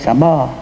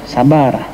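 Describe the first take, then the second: First: It is said in a Kelantan Malay accent. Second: It is said in an Indonesian accent. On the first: "orang Kel sabar" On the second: "orang Indonesia sebut sabar"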